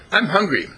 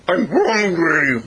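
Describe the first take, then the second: First: Higher, crisp prompt to a dog; dog owner prompting. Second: High, loud, slow dog howl; doggish talking. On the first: Retold or imitated. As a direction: say it for the dog to copy. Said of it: "she spoke to it again". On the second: Acted. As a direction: stretch it out like a howling dog. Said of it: "And the dog said".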